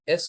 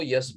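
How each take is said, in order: First: ایس with an open vowel onset; standard pronunciation. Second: یس with a y-glide in front; altered pronunciation. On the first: Teacher contrasting readings for students, standard ایس. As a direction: say ایس starting straight on the vowel. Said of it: "ایس کو ایس پڑھیں". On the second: Teacher contrasting readings for students, یس with added y. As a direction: start یس on a y sound. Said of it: "ایس کو یس پڑھیں". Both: Shown as a demonstration.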